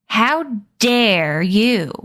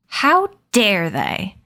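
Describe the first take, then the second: First: Very slow, falling, livid demand; slow furious rebuke, stressing how; livid shout. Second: Slow, drawn-out snarl of outrage; indignant slow snarl on how. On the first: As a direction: drag each word out in fury. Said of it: "Addison shouted, livid". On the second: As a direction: spit it out slowly, offended. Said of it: "Addison snarled". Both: Acted.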